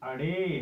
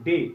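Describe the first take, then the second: First: The name starts with a short vowel sound. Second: The name starts directly with the consonant. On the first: The speaker calls it right. "बल्कि अडे है" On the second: The speaker calls it wrong. "यहां पर हमने पढ़ा था आज तक डे, जबकि ये डे नहीं है"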